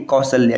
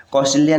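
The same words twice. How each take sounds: First: कौशल्या as "kau-shal-ya"; correct form. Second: कौशल्या with extra "i", "kausalia"; wrong form. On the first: Teacher giving the correct form, "shal-ya" in कौशल्या. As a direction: say कौशल्या without an "i" after sh. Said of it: "ये आपको याद रखना है". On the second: Teacher citing the rejected form, "li-ya" in कौशल्या. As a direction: say कौशल्या as "kau-sa-li-ya". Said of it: "कौशल्या नहीं". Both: Shown as a demonstration.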